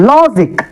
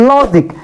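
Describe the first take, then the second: No difference in how they are said.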